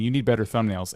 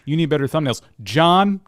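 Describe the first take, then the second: First: Said in the usual way. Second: Higher, louder, with the name punched out; crudely edited-in name. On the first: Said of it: "It'll be me saying". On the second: Shown as a demonstration. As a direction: make the name jump out like a crude splice. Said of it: "crudely edit myself in later where I go".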